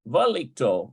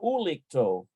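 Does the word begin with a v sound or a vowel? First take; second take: v sound; vowel. First: The word begins with a v sound. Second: The word begins with an oo vowel. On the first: The speaker calls it right. "equals a V sound" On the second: The speaker calls it wrong. "I think it's probably uh"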